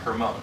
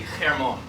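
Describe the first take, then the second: First: It begins with a plain h sound. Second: It begins with a throaty ch sound.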